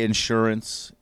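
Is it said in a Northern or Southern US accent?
Northern. It is said in a Northern US accent.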